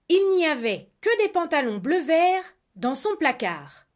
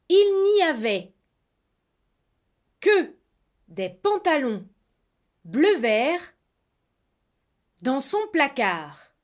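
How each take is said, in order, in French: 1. La phrase est prononcée à une vitesse de conversation normale. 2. La phrase est prononcée lentement et distinctement. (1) "Une fois à vitesse normale" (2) "deux fois à vitesse lente"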